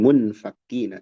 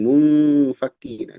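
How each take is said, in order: First: The nasal n sound is cut short. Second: The nasal n sound is held longer. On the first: The speaker calls it wrong. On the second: The speaker calls it right.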